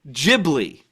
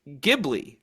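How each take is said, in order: First: It begins with a J sound. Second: It begins with a hard G sound. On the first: "the J sound" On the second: "with the G sound"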